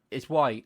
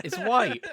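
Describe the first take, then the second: First: Said in the usual way. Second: Higher, louder stubborn repeat through a laugh. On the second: Retold or imitated. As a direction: dig in, laughing, refusing to budge. Retold argument, laughing insistence.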